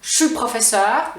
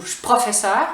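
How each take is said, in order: First: "je suis" said "chu" before "professeur"; Quebec contraction. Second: "je suis" cut to "ch" right onto "professeur"; fully reduced contraction. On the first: Teacher giving another example to learners, contracted pronunciation. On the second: Teacher giving the shorter option, fully reduced pronunciation. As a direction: drop both vowels of "je suis": "ch'professeur". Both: Shown as a demonstration.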